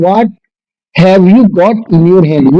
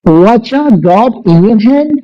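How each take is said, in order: First: 'What have you' is said as three separate words. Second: 'What have you' is squeezed into one short syllable group. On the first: "मतलब" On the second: "वचा बोला जाता है"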